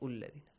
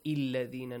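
First: The word begins with a u vowel. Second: The word begins with an i vowel. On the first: "not ulladhina" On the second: "not illadhina"

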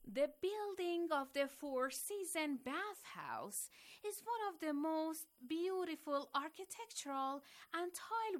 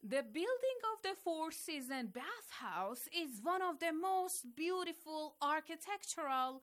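First: It is read slower, with more emotion. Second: It is read faster, with little emotion.

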